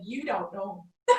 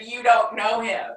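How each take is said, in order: First: Laughing retort. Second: Much louder, punchy and triumphant; emphatic retort. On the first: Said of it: "And I said". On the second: Repeating her comeback to the Harvard classmate, louder and triumphant. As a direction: hit the line hard like the final word. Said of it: "I said". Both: Retold or imitated.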